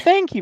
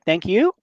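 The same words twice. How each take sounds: First: It falls at the end like a statement. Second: It rises at the end like a question.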